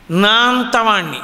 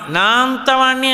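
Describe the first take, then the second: First: Proud boast. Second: Swelling boast. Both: Retold or imitated. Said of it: "అన్నాడంటే ఏదో ఒక విభూతి".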